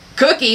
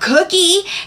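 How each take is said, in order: First: It sounds like a refusal. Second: It sounds eager and excited.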